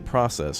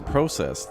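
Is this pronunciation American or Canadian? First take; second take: American; Canadian. First: It is pronounced in an American way. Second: It is pronounced in a Canadian way. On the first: "Americans say process" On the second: "That's like Canadian"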